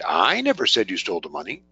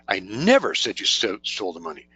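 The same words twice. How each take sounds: First: The stress falls on the word "I". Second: The stress falls on the word "never". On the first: Someone else said it. "that implies somebody else did" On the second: It was flatly never said at all. "maybe the most emphatic way to say"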